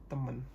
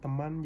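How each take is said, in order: First: The second vowel is an E sound. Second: The second vowel is an A sound. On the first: This is the casual slang form. "Perubahan huruf vokal menjadi E" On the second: This is the standard formal form. "kata aslinya"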